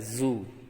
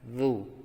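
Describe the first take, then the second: First: The consonant is a buzzing z sound. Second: The consonant is a voiced th sound. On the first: The speaker calls it wrong. "Tidak boleh dibaca zu. Kalau zu berarti kamu telah mengganti dengan huruf zai" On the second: The speaker calls it right. "menempelkan lidah di ujung gigi atas. Jadi dibaca zu"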